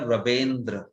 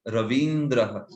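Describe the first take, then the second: First: The second vowel is an e sound. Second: The second vowel is a short i sound. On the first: The speaker calls it wrong. "मुझे सुनाई दिया रवेंद्र, ऐसा" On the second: The speaker calls it right. "वैसा होना चाहिए उसका"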